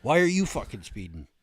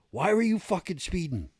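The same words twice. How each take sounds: First: Imitated driver throwing the question back; retold driver's retort. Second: Higher, louder imitation of an indignant trooper; retold demanding trooper. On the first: Speeding driver talks back to the trooper, retorting. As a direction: echo the trooper's question, a bit raised. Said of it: "the guy in the car goes". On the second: State trooper confronts a speeding driver at his car, demanding. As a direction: bark the trooper's question, voice pitched up. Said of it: "Just like that".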